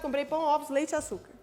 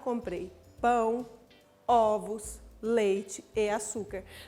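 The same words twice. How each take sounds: First: The items run together with no pauses between them. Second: Short pauses separate each item in the list. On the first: The list loses its sense. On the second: The items are heard as a clear list.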